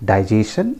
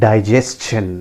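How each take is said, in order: First: Digestion as dai-JAY-sun, questioning; common mispronunciation. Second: Digestion as dai-JES-chun; correct pronunciation. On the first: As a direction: drop the CH from Digestion. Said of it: "that is not the correct pronunciation". (Digestion का गलत उच्चारण, डाइ-जे-सन) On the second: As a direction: sound S plus CH in digestion. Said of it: "It is pronounced as". (digestion का सही उच्चारण, डाइ-जेस-चन) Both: Shown as a demonstration.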